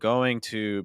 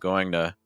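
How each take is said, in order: First: Each sound is said fully, with a clear T. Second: The T is a quick D, the vowel weak.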